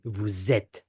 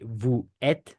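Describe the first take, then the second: First: Vous êtes linked with Z, vou-zêtes, slow; French liaison with Z. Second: Vous êtes with no Z, vou-êtes, slow; French without liaison; no liaison, wrong. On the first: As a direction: link vous to êtes with a Z, slowly. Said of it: "We don't say vous êtes". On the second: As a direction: say vous êtes apart, slowly, no Z. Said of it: "We don't say". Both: Shown as a demonstration.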